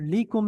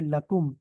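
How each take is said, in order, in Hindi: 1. पहला स्वर छोटा i है। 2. पहला स्वर छोटा a है। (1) "ली कुम नहीं पढ़ सकते हम" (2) "ये ला हो जाता है। जैसे लकुम"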